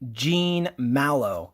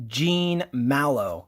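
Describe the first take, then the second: First: The name is said with an English pronunciation. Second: The name is said with an English pronunciation.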